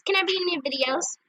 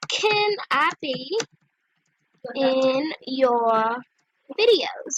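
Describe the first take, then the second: First: Brisk, run-together question; quick read-back. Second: Very slow, stretched words; typing aloud. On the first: Checking the question for her videos, quick read-back. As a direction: rattle it off in one go. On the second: Asking to be in her videos, typing aloud. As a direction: drag out each word as you type. Spelling out her chat message. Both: Real, not acted.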